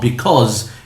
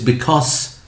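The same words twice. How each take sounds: First: It ends with a voiced z sound. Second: It ends with a voiceless s sound. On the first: The speaker calls it wrong. "So now it's not because" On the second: The speaker calls it right. "it's because. Why? Because it's followed by teachers"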